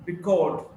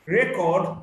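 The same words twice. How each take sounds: First: "record" as ri-CORD; weak start, strong CORD in "record"; stress on second syllable. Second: "record" as REC-ord; stress on first syllable. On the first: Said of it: "stressed in the second syllable". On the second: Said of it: "stressed in the first syllable". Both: Shown as a demonstration.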